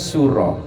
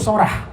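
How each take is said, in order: First: It is said the Javanese way, as Suro. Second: It is said the Madurese way, as Sorah.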